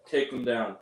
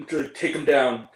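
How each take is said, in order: First: Low, half-hearted mock order; no conviction. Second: Imitated order with some force; first mock attempt. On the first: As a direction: give the order as if you don't believe it. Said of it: "with no conviction". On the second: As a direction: give the order firmly, in mockery. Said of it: "Or more like".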